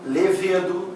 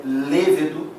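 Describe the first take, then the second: First: "levedo" with the stress on VE; wrongly stressed middle syllable in "levedo"; mispronounced levedo. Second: "levedo" slowly, stress on LE; first syllable of "levedo" stressed; correct lêvedo. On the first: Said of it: "Pronúncias erradas". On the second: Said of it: "O certo é levedo". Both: Shown as a demonstration.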